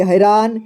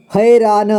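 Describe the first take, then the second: First: Said in the usual way. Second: हैरान split as है, रा, न; syllable by syllable. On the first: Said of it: "इसे पढ़ेंगे". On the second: Shown as a demonstration. Teacher showing learners हैरान, sounded out in parts. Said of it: "इसे पढ़ेंगे हैरान".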